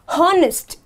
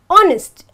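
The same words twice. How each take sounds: First: The word starts with an audible h sound. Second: The word starts with a vowel, no h sound. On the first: The speaker calls it wrong. "not honest" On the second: The speaker calls it right. "I have to say honest"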